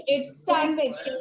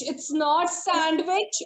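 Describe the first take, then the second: First: Sandwich with a silent D, san-wich; sandwich without D. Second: Sandwich said with a D sound, sand-d-wich; wrong sandwich with D. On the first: Teacher gives the right sandwich, no D sound. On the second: Teacher shows the wrong way to say sandwich, sounding the D. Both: Shown as a demonstration. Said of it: "Okay, without D".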